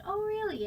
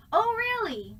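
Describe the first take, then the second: First: Said in the usual way. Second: High, loud "Oh, really?" thrown across the room; projected call. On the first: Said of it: "not really able to just say". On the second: Shown as a demonstration. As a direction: call "Oh, really?" to someone far off. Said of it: "So you have to go".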